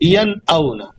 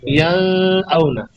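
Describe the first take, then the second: First: The n is clear without nasalization. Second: The n is hidden and nasalized. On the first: The speaker calls it right. "अब यहाँ पर मैंने गुन्ना नहीं किया।" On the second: The speaker calls it wrong. "छुपा के आवाज़ को नाक में लेके जाता तो मैं ऐसे पढ़ता"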